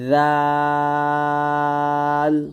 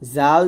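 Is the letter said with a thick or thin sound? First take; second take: thin; thick. First: The letter is said with a thin sound. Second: The letter is said with a thick sound. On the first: The speaker calls it right. "পাতলা করে" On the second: The speaker calls it wrong. "জাল যেন না হয়ে যায়"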